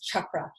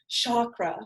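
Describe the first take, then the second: First: The word begins with a hard 'ch' sound. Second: The word begins with a soft 'sh' sound. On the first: This follows the original Sanskrit word. "if you look at the Sanskrit word" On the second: This is the common North American way of saying it. "We use like a nice shh sound"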